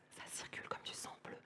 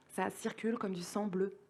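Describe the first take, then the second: First: Barely audible, voiceless whisper; whispered refrain. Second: Softly voiced, well below full volume; soft refrain. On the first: Acted. Poet repeating the blue-blood refrain to listeners, in a whisper. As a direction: whisper it like an echo. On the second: Poet softly reciting a circulation refrain to listeners, hushed but voiced.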